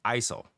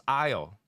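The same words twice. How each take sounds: First: Aisle said as "ai-sol" with the s sounded; accented aisle. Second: Said in the usual way. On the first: Shown as a demonstration. Imitating in-laws saying the word, aisle as ai-sol. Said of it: "They pronounce aisle". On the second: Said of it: "They don't pronounce aisle".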